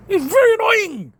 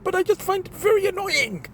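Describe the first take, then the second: First: "very" leaned on, higher and louder; emphatic repeat. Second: Said in the usual way. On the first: Real, not acted. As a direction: hammer home "very annoying" the second time.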